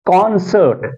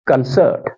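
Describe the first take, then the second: First: कॉन्सर्ट said KON-sert, full first vowel; strong KON in कॉन्सर्ट; first-syllable stress. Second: कंसर्ट said kun-SERT, weak first vowel; light kun, strong SERT in कंसर्ट; second-syllable stress. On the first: Teacher giving another example, stress on KON. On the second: Teacher giving another example, stress on SERT. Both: Shown as a demonstration. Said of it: "इसी तरह से मैं पढ़ूंगा".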